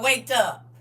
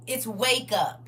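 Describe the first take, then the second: First: "Wake up" said with a clear k in Wake. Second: "wake" stressed with a crisp k at the end; wake, not wait. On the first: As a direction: stress Wake, not wait. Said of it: "It's wake up. Not wait". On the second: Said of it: "Not wait". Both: Shown as a demonstration.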